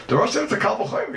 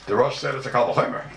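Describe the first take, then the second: First: Higher again, punch said with a rise; strong emphasis. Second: Said in the usual way. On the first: Shown as a demonstration. Teacher insisting to students on the Rosh, emphatic and high. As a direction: drive the point home. Teacher repeats the key point.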